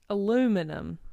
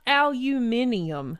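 First: It is said the American way, without the extra syllable. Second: It is said the European way, with an extra syllable. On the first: The speaker calls it right. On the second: The speaker calls it wrong.

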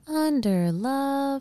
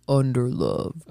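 First: It is said in a high-pitched voice. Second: It is said in a deep, yawning man's voice.

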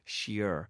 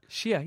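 First: The word is said in her usual accent. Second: The word is said in a Boston accent. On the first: "I was saying that in a way that people didn't understand" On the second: "I can do the Boston accent"

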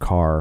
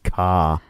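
First: The word is said in a standard accent. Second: The word is said in a Boston accent. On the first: "instead of car" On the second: "a town that says car"

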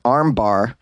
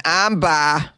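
First: It is said in a plain, unaccented way. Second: It is said in a Boston accent.

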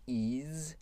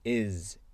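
First: The vowel is drawn out long. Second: The vowel is very short. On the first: The speaker calls it wrong. "c'est pas is" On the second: The speaker calls it right. "c'est très court"

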